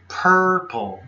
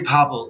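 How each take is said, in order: First: The r sound is clearly pronounced in the word. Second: The r sound is dropped from the word. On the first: The speaker calls it right. "Say purple" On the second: The speaker calls it wrong. "You're saying papo. Don't say papo"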